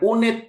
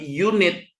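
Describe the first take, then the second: First: The word begins with a plain vowel sound. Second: The word begins with a y sound. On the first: The speaker calls it wrong. "Ini bukan unit" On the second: The speaker calls it right. "tapi unit ... ini bacanya y"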